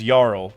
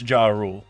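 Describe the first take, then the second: First: The name is said as one short syllable. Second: The name is said as two syllables. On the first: The speaker calls it right. "his name definitely is [name]" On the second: The speaker calls it wrong. "everyone loves saying Ja Rule"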